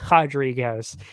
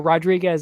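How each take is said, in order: First: The name is said with a Brazilian pronunciation. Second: The name is said with an American pronunciation. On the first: The person is Brazilian. "Marina Rodriguez is Brazilian, so you pronounce it differently" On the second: The person is American. "which makes sense because he's American"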